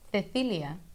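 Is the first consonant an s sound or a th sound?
th sound. The c is said with the tongue between teeth. This is how it is said in Spain. "ele vai ter um som próprio, que é produzido com a língua entre os dentes"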